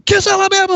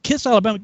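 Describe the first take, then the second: First: High, loud mock order; sergeant bellow. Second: Higher questioning imitation; baffled echo. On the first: Sergeant repeats order to recruit, mock bellow. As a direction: shout it back as a command. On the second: Recruit puzzles over strange order, baffled. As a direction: repeat it like a lost private.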